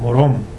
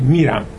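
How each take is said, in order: First: The stress is on the last syllable. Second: The stress is on the first syllable. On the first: "در مشهدی و تربتی میگن مروم، اون قسمت آخر تکیه روی هجای آخر هستش" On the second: "در لهجه استاندارد یا در لهجه تهرانی میگید میرم، می تکیه داره"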